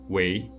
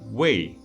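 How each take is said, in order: First: The word is said with the second tone. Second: The word is said with the fourth tone. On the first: It means to do, to be, to become. "The second tone" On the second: It means for the sake of. "while the fourth tone"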